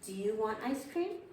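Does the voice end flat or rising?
rising. The voice rises at the end. It is clearly a question. The speaker calls it right. "My voice should go up with a question"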